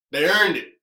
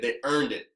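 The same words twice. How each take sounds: First: "earned" pushed harder and a bit louder; emphatic repeat. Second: Said in the usual way. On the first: Shown as a demonstration. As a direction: insist that they earned it.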